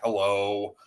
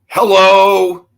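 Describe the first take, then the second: First: It is said flatly, with no effort. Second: It is said with lively, deliberate effort.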